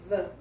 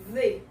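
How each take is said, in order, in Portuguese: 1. A palavra termina com a vogal 'uh' curta. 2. A palavra termina com a vogal 'ee' longa. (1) "você vai trazer o som do schwa e vai juntar" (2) "você já vai trazer para o som do I"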